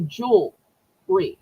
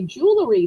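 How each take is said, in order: First: The word has two syllables, middle vowel dropped. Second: The word has three syllables, middle vowel kept.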